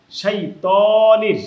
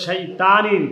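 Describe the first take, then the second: First: শাইতানির with loud, long, rounded "too"; corrected শাইতানির, loud drawn-out "too"; heavy "too". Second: শাইতানির with a thin "taa" vowel; mispronounced শাইতানির, plain dental "taa"; wrong light "taa". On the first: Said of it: "তানির হবে না". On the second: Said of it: "অনেকে বলে". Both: Shown as a demonstration.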